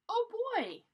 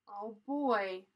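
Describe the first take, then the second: First: It sounds excited and eager. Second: It sounds worried, not excited.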